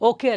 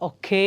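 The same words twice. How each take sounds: First: The final vowel is short and flat, without a glide. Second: The final vowel is drawn out, gliding into y. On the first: The speaker calls it wrong. "ಓಕೆ ಅಲ್ಲ" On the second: The speaker calls it right. "ಆ ಯ ಅನ್ನೋದನ್ನು ಸ್ವಲ್ಪ ಲಾಂಗಾಗಿ ಎಳೆದು ಇಟ್ಕೊಂಡು complete ಮಾಡಬೇಕು"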